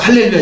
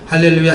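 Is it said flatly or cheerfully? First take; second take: cheerfully; flatly. First: It is said in a bright, lively tone. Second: It is said in a plain, flat way.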